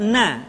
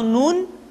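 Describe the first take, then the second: First: The word ends with an open vowel. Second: The word ends with an n sound. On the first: The speaker calls it wrong. "tidak dibaca na" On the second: The speaker calls it right. "Atau nun"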